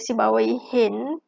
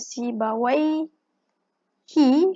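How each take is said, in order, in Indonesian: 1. Nama Sibawayh diakhiri dengan bunyi n tambahan. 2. Nama Sibawayh diakhiri tanpa bunyi n tambahan. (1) "sekiranya dia baca si bawah hin" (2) "apabila kita baca si bawah hi"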